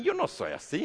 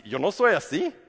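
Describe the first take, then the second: First: High, whiny denial; a caught thief whining his innocence to the judge; mock denial. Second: Insistent denial rising at the end, a bit louder; a caught thief insisting to the judge; mock denial. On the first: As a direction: whine it out. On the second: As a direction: protest your innocence, half-joking.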